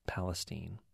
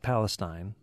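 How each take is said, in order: First: It has the local, non-standard Texas pronunciation. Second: It has the usual, standard pronunciation of Palestine. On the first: This is the name of the Texas city. "but pronounced Palestine" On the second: This is the name of the region. "Spelled just like Palestine"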